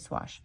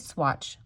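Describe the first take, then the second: First: The word ends with a 'sh' sound. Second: The word ends with a 'tch' sound. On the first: The speaker calls it right. "It's spelled swash" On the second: The speaker calls it wrong. "I just want to say swatch, like S W A T C H"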